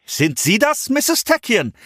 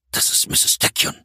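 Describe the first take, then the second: First: High, strained friendly call. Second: Hushed, unvoiced whisper. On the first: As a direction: call across the rubble, forced cheer. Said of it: "rief er". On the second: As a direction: whisper the name in dread. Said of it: "flüsterte er". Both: A narrator's reading.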